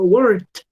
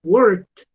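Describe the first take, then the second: First: The word ends with a t sound. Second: The same.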